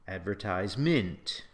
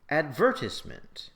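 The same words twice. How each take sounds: First: It uses a stress pattern neither variety uses. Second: It uses the British stress pattern. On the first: "you will never say" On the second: "if you're British, you'll say"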